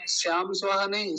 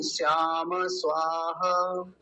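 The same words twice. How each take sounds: First: "श्याम स्वाहा" quickly run together as the common mistake; teacher imitating the wrong "श्याम स्वाहा"; wrong pronunciation. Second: "श्याम स्वाहा" said carefully, each sound given its full value; careful model of "श्याम स्वाहा" with "श्याम" clearly voiced; slow correct "श्याम स्वाहा"; correct pronunciation. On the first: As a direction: rush "श्याम स्वाहा" the careless way. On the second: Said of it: "ऐसा बोलेंगे". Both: Shown as a demonstration.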